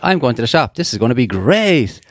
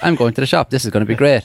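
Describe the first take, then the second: First: The word great gets extra emphasis. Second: The word great gets no extra emphasis.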